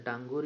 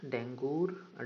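First: डांगूर with a long "aa" in the first syllable; second guess at the name, डांगूर starting "daan"; unsure name pronunciation. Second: डेंगूर with an "e" vowel in the first syllable; unsure name pronunciation. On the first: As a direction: try डांगूर with "daan", not "den". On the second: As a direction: tentatively sound out डेंगूर, first syllable "den". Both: Real, not acted. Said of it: "अच्छे तरीके से pronunciate नहीं कर रहा".

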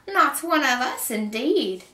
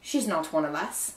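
First: High, loud, slow indignant echo; scornful screeching witch; witch's shriek. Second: Said in the usual way. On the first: A narrator's reading. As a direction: throw the insult back as an outraged witch. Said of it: "the witch shrieked at Kate".

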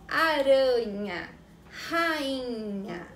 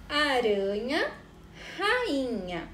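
First: Slow and deliberate on "aranha", then "rainha" with a guttural R; clear demo of the R sounds. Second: Said in the usual way. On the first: Shown as a demonstration. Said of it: "há diferença no som da letra R nessas". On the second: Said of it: "observe as palavras".

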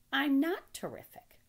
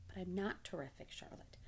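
First: High, loud, slow piglet protest. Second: Softer, shy little protest; bashful pig. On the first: Acted. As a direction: object emphatically, drawn out and high. Wilbur protests. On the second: A narrator's reading. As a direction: demur quietly, fading on the name. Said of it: "Wilbur blushed".

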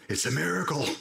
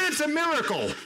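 First: Said in the usual way. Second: Very high-pitched, fervent cry; preacher's climax, pitch soaring; exultant exclamation. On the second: Real, not acted. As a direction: proclaim it at the peak of excitement. Sermon climax, then repeated calmly.

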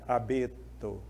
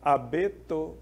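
First: "Abeto" with the middle syllable "be" held long; stress on BE. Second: Said in the usual way. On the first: Shown as a demonstration. Teacher showing where the tonic syllable falls, lingering on "be" in "Abeto". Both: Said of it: "Eu demorei mais tempo no B".

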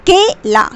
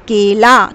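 First: "केला" said high with a falling close; raised example word. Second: Said in the usual way. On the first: Shown as a demonstration. Teacher models word for child, raised and falling. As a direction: lift "केला" up and let it fall. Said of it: "अब तुम्हें मन में सोचना है मात्रा के साथ". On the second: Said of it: "और फिर बोलना है".

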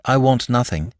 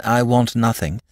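First: I lifted and stressed, want nothing falling away. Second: Want stressed, then a falling end. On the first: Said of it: "When first he said". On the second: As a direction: lean on want in I want nothing. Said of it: "Then he said again". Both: A narrator's reading.

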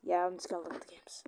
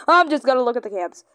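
First: Fast unvoiced whisper. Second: Quick aside. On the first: Player whispering the line again to himself. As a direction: breathe it quickly. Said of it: "repeats whispered". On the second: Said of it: "repeats in whisper". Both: Shown as a demonstration.

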